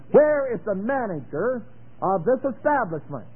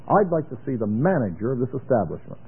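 First: Demanding loud. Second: Kindly. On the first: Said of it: "doesn't that sound meek". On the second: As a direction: ask gently for the manager. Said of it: "I ought to say it kindly". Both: Shown as a demonstration.

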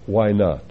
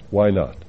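The two takes are said the same way.

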